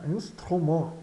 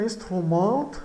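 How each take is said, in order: First: "Instrument" ending on a nasal vowel; silent final T. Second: "instrument" with an audible T at the end; final T sounded. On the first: Teacher models the French word, "Instrument" with silent T. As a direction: finish "Instrument" without any T. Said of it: "o T final é mudo". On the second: Teacher points out the spelling, "instrument" with T sounded. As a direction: read "instrument" as written, tapping the last T. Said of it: "o T final é mudo, não soa". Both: Shown as a demonstration.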